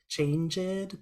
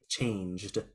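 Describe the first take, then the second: First: The ending is more than a plain d. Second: The word ends with just a d. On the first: The speaker calls it wrong. "You like to say changed? ... Be careful with that" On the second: The speaker calls it right. "Just the d"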